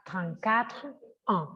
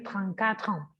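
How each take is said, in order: First: Trente-quatre ans split apart, slow; said slowly. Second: Trente-quatre ans run together in one flow; linked. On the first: Teacher showing the slow, unlinked way. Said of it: "Si yo lo dijera despacio". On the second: Teacher showing the linked way, sounds joined. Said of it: "Pero se une el sonido". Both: Shown as a demonstration.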